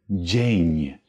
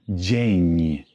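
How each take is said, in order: The two takes are said the same way.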